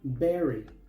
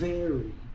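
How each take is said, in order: First: The first sound is not a soft F. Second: The first sound is like a soft F. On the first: The speaker calls it wrong. "Muchos pronuncian esta palabra berry" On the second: The speaker calls it right. "la V se pronuncia como una F suave"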